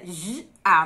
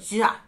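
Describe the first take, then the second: First: The two sounds are said slowly and separately. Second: The two sounds are said quickly as one syllable. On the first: "você tá falando o som separado" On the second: "se você fala rápido"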